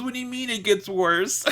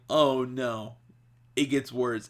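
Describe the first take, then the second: First: High-pitched imitation of her upset; high, hammed-up distressed question; mock tearful protest. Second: Said in the usual way. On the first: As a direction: wail it in mock dismay, near laughter. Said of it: "She is crying so hard".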